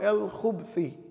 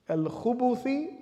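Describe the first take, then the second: First: No vowel is heard between b and th. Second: A u vowel is heard between b and th.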